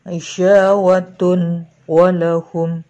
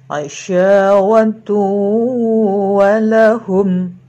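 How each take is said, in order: First: The n sound is clearly pronounced before w. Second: The n sound merges into the following w. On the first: The speaker calls it wrong. "Tidak dibaca aisyawatun walahum" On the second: The speaker calls it right. "tapi aisyawatu walahum"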